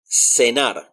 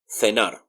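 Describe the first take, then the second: First: The first sound is an s sound. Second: The first sound is a th sound. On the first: This is how it is said in Latin America. "it sounds like an S" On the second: This is how it is said in Spain. "they pronounce it more like a th"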